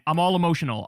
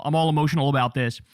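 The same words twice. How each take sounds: First: Said in the usual way. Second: Excited restatement of the feeling; emotional repeat. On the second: Real, not acted. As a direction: rush it out, worked up.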